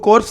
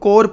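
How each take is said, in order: First: The final p and s sounds are pronounced. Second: The final p and s sounds are silent. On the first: The speaker calls it wrong. "इनको कॉर्प्स नहीं पढ़ते" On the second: The speaker calls it right. "इनको कोर पढ़ते हैं"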